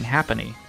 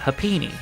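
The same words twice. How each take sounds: First: The ending does not sound like 'teeny'. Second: The ending sounds like the word 'teeny'. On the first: The speaker calls it wrong. "I've been saying Happiny" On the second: The speaker calls it right. "it kind of sounds like teeny"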